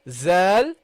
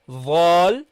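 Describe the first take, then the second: First: It starts with a buzzing z sound. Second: It starts with a heavy, thick th sound. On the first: "they pronounce it as a zay" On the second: "you make it heavy"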